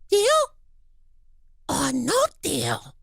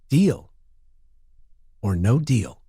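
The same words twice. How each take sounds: First: It is said in an Elmo voice. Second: It is said in his normal voice.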